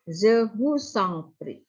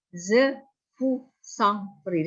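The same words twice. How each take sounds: First: "Je vous en prie" slow, words joined together; linked phrase. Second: "Je vous en prie" linked slowly as one phrase; run together slowly. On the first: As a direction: glide through "Je vous en prie" without breaks, slowly. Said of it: "selalu digabung". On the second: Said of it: "Di sini lihat". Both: Shown as a demonstration.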